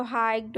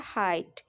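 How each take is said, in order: First: हाइट misread with a hard G or K before the T, 'hikt'; GH wrongly sounded. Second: हाइट said 'hite', no G, low and falling; GH silent. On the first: Teacher showing the misreading of height, GH sounded as a hard consonant. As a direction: sound the silent letters in हाइट, like 'hygt'. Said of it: "ऐसे पढ़े तो हाइट हो जाता है". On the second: Teacher giving the right reading of height, GH silent. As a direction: drop the GH in हाइट and let it fall. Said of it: "इसको क्या पढ़ दिया". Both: Shown as a demonstration.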